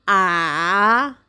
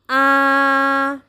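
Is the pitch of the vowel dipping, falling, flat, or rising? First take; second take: dipping; flat. First: The pitch falls, then rises again. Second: The pitch stays level throughout. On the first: "dari tinggi turun kemudian naik kembali" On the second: "Nada pertama bunyinya datar"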